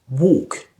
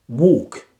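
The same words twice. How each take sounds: No difference in how they are said.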